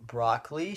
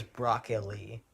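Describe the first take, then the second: First: "broccoli" as BROCK-lee; Californian pronunciation. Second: "broccoli" as BROCK-uh-lee; three syllables in "broccoli", BROCK-uh-lee; girlfriend's pronunciation. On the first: Shown as a demonstration. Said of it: "I say broccoli". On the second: Retold or imitated. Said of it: "she says broccoli".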